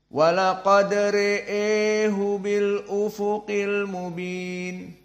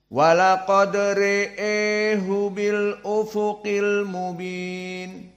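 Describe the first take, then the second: No difference in how they are said.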